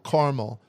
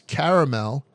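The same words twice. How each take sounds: First: The word is said with two syllables. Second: The word is said with three syllables. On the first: The speaker is from the western or northern parts of the country. "pronounce it with two syllables" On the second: The speaker is from the southern states. "any kind of three uh, syllable pronunciation"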